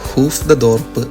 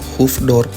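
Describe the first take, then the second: First: An extra 'de' syllable is said between the parts. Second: The two parts are joined with no extra syllable.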